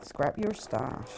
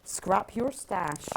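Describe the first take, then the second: First: Slow, lower-pitched Bristolian drawl; Bristol accent. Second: Slow, slight Bristol accent; a bit Bristolian. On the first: Shown as a demonstration. Joking about doing the show in Bristol, deliberate Bristol accent. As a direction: say it slowly in a put-on Bristol accent. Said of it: "in Bristol accent". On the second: Real, not acted. Reading a book title to a fellow West Country quilter, slightly Bristolian. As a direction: draw it out with a touch of Bristolian. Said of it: "That was a bit Bristolian".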